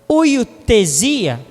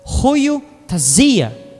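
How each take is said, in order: First: The word is said in a Portuguese pronunciation. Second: The word is said in a Greek-style pronunciation. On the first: "A pronúncia no português correto é" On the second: "que é uma palavra grega"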